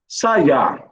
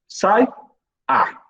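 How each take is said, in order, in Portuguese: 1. A palavra é dita de forma fluida, sem pausa. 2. A palavra é quebrada por uma pausa antes do a.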